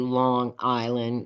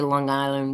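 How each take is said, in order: First: The two words are kept clearly apart. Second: The two words run together as one. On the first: This is how locals do not say it. "We don't say Long Island" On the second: This is how local New Yorkers say it. "New Yorkers say Long Island. ... We kind of mesh the two together"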